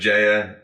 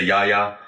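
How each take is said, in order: First: The name begins with a J sound. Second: The name begins with a Y sound. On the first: This is how many English speakers say it. "I always say Jaya" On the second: This is how many Dutch and German speakers say it. "A lot of the Dutch and Germans say Yaya"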